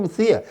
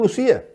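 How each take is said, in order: First: "Lucía" with a lisped c, as in Castilian Spain, luTHía. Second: "Lucía" with a plain s sound, luSía, the Canarian way. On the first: Explaining to the host that Canarians don't say "Lucía" with a th. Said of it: "nosotros no decimos Lucía". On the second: Showing the host how Canarians really say "Lucía", with an s. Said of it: "nosotros decimos Lucía". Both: Shown as a demonstration.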